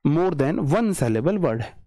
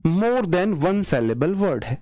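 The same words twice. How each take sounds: The two takes are said the same way.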